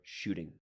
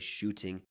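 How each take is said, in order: First: The T is a soft flap, like a quick D. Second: The T is a crisp, clear T sound. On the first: "the average American is listening for" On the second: "You can say shooting, no problem"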